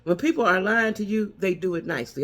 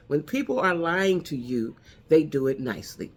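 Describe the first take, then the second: First: Said in the usual way. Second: Said slowly, each word weighed; slow it down so it lands; deliberate slowed-down restatement; slower, deliberate repeat. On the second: Shown as a demonstration. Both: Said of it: "I'm gonna say that one more time".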